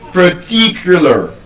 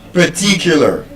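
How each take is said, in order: First: The stress is on the second syllable. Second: The stress is on the second syllable.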